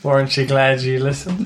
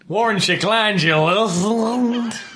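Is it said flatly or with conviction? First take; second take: flatly; with conviction. First: It is said flatly, without much conviction. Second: It is said with strong conviction.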